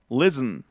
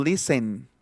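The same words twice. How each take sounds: First: 'listen' as LIS-n; reduced final vowel. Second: 'listen' as LI-sen, clear e; wrong, full-vowel pronunciation. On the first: Teacher showing his own version, 'listen' with no final vowel. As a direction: run s into n in 'listen'. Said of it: "estoy pronunciando listen". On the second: Teacher showing the mistake, 'listen' with a full final e. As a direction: sound the last vowel of 'listen'. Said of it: "No estoy pronunciando listen". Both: Shown as a demonstration.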